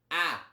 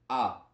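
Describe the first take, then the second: First: The vowel sounds bright, ringing and much louder. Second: The vowel sounds plain, with an ordinary tone. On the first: "a z twangiem" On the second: "Normalne a"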